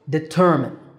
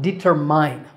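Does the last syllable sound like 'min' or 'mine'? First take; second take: min; mine. First: The last syllable sounds like min. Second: The last syllable sounds like mine. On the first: The speaker calls it right. "It's de-ter-min with a stress on the second syllable ter" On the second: The speaker calls it wrong. "This is not determine. There's no mine here"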